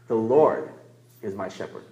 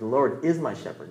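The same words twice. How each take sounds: First: The stress falls on the word Lord. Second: The stress falls on the word is. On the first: It is this specific one, not anyone else, who is the shepherd. "You emphasize one word, the Lord" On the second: It is true right now, not only in the past or future. "not was my shepherd, not will be my shepherd"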